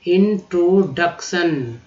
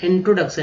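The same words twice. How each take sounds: First: इंट्रोडक्शन said slowly as इंट्रो-डक-शन; slow assembled word. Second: Said in the usual way. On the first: Shown as a demonstration. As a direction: rebuild इंट्रोडक्शन slowly from its parts. (धीरे-धीरे जोड़कर: इंट्रोडक्शन) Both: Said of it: "इंट्रो, D यू सी, डक".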